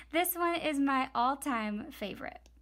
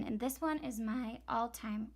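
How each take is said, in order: First: Said in the usual way. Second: Voice cracking. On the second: Real, not acted. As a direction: voice cracking up an octave. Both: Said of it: "whoa, my voice just cracked".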